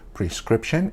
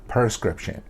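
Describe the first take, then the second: First: The word begins with a clear 'pre' sound. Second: The word begins without a clear 'pre' sound. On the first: The speaker calls it right. "Pre before scription" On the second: The speaker calls it wrong. "it's not prescription"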